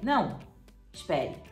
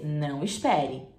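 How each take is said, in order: First: There is a pause after não. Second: It is said without a pause after não.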